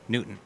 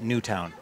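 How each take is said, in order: First: The second syllable sounds like 'ton'. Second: The second syllable sounds like 'town'. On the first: The speaker calls it right. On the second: The speaker calls it wrong.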